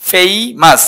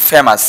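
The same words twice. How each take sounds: First: ফেমাস with a long "ay" glide, "FAY-mas"; correct pronunciation. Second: ফেমাস with a short plain e, "FE-mas"; common mispronunciation. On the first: Teacher models the right word for students, corrected pronunciation. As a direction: stretch the first syllable of ফেমাস into "fei". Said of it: "এটা উচ্চারণ হচ্ছে ফেমাস". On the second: Teacher quotes the everyday mistake to students, mispronounced. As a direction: say ফেমাস the common wrong way, no glide. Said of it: "আমরা এটা উচ্চারণ করি". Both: Shown as a demonstration.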